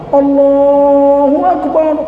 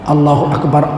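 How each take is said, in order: First: The phrase is said strongly and loudly. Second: The phrase is said softly and quietly. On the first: "Sayyidina Bilal kuat" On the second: "Abdullah bin Zaid azan pelan-pelan"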